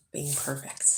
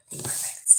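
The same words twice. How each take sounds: First: Said in the usual way. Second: Hushed whisper; whispered echo. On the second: Real, not acted. Vlogger echoing her hope for the inspection, whispered. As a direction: whisper it like a secret wish.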